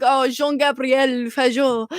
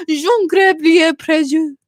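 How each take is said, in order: First: Put-on slow French-accented name. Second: Drawn-out, hammed-up French name; French accent. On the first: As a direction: imitate a French dad introducing a name. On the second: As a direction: savor the French name, slowly. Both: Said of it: "French accent".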